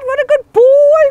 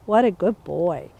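First: It is said excitedly with high energy. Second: It is said calmly with low energy.

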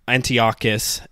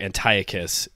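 First: The name is pronounced the Hebrew way. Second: The name is pronounced the Greek way. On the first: "as you say in Hebrew" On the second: "if you go with the Greek pronunciation"

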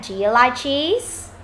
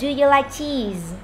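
First: The voice rises at the end. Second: The voice does not rise at the end.

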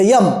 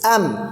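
First: It starts with a y sound. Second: It starts with a plain vowel sound. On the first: The speaker calls it wrong. "It's not यम, ते यम नाही आहे" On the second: The speaker calls it right. "It's ॲम"

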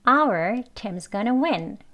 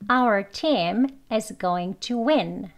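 First: Only 'our' is slow; the rest is quick. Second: Every word is said slowly and fully. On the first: "나머지는 빨리 말을 하지요" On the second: "천천히 두번 해보겠습니다"

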